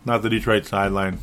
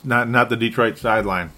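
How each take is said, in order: First: Mutter-free dry aside; deadpan repeat. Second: Firm correction, hitting not; correcting himself. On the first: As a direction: say it again flatly to yourself. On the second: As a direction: stress on not. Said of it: "not the Minnes". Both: Real, not acted.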